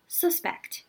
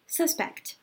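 First: The stress is on the first syllable. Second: The same.

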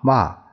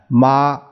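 First: The syllable is said with the fourth tone. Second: The syllable is said with the first tone. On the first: "这一二三四声" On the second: "这一二三四声"

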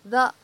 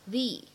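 First: The vowel of 'the' is a short 'uh'. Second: The vowel of 'the' is an 'ee'. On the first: The speaker calls it wrong. "不读成the" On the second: The speaker calls it right. "而应该读成the，因为后面的eyes 它呢是一个元音因素来开头的单词"

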